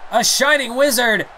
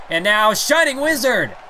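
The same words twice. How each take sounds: First: Bigger excited call. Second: Slowed, punched move call; excited call. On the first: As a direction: top the first call with more hype. Repeats the call, higher, louder. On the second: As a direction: announce the big move with hype. Big move called out. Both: Acted.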